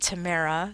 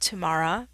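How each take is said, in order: First: The name does not sound like tomorrow. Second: The name sounds like the word tomorrow. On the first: The speaker calls it wrong. "There's also a Tamara" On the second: The speaker calls it right. "just think tomorrow"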